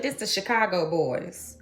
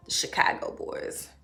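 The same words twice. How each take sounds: First: Said in the usual way. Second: Hushed fond repeat; whispered. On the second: Real, not acted. Repeating the picture name.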